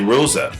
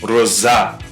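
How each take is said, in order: First: The stress is on the first syllable. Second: The stress is on the final syllable. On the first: The speaker calls it wrong. "if someone sees it and they don't know what the function of the aigu is, they'd say" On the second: The speaker calls it right. "But actually it's"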